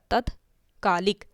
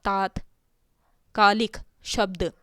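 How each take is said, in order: First: तत्कालिक said slowly with a short a in the first syllable; short first vowel. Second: तात्कालिक said slowly with a long aa in the first syllable; long first vowel. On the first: Teacher slowly sounds out the short-vowel form for students. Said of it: "तात्कालिक ना लिख के हम क्या लिखते हैं". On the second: Teacher slowly sounds out the long-vowel form for students. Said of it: "यहाँ पे आपका तात्कालिक जो शब्द है". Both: Shown as a demonstration.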